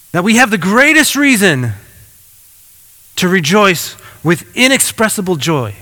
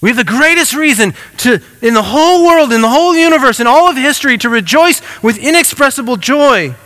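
First: Said in the usual way. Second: Higher, rising fervor on "in the whole world" and "in the whole universe"; building emphasis. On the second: Shown as a demonstration. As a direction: preach it, each phrase climbing. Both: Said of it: "repeats phrase with more force".

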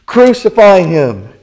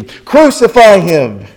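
First: Loud, raised mob shout; crying out. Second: Louder, drawn-out mob shout; crying out exceedingly. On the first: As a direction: yell it as a crowd demanding death. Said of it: "they cried out again". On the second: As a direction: stretch the yell out at full force. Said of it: "they cried out the more exceedingly". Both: A narrator's reading.

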